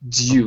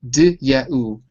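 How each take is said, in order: First: The three sounds are blended into one syllable. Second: The three sounds are said separately with pauses. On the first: "So those three sounds are put together"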